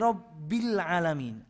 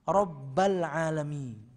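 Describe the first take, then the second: First: The vowel after 'Rabb' is an 'i' sound. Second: The vowel after 'Rabb' is an 'a' sound. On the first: The speaker calls it right. "Harokatnya kan kasroh ya" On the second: The speaker calls it wrong. "Dia rubah jadi fathah"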